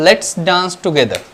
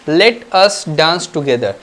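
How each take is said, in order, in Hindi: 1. Let और us मिलकर एक सिलेबल, lets, बन जाते हैं। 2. Let और us अलग-अलग शब्दों की तरह बोले जाते हैं।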